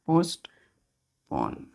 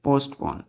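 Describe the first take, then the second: First: पोस्टपोन drawn out slowly, syllable by syllable. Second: Said in the usual way. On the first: Shown as a demonstration. Teacher to students, showing the word: slowly drawn out. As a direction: stretch पोस्टपोन out for the class. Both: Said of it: "या इसको हम लोग बोलते हैं".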